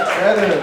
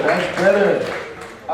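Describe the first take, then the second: First: Said in the usual way. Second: Drawn out, slow; comic savoring the crowd's reply, slowly; slow repeat. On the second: Real, not acted. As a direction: stretch it out slowly.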